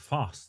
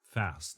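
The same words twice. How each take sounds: First: The vowel is a long British 'ah' sound. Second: The vowel is a short American 'a' sound. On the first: "and fast" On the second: "instead of fast"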